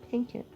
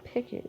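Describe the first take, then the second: First: The name is said with an n sound. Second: The name is said without an n sound. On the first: The speaker calls it right. "It's Pinkett" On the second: The speaker calls it wrong. "Why am I saying Pickett?"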